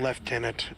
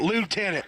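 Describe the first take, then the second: First: It is said the British way, like leftenant. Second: It is said the American way, like lootenant. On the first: "It's a British pronunciation of the term" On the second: "America we call it lieutenant"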